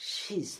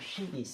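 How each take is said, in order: First: It is said as one contracted word. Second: It is said as two separate words. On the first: "contraction" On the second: "এটা হচ্ছে full form শি ইজ"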